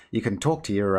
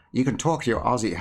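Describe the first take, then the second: First: Said in the usual way. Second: Put-on a half-hearted stab at an Australian accent on "you can talk to your Aussie". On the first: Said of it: "I can't even be asked to try". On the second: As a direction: lightly try an Australian accent, then give up with a laugh. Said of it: "I'm trying to do an Australian accent".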